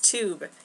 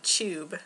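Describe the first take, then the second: First: It is said in a plain American accent. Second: It is said in a British accent.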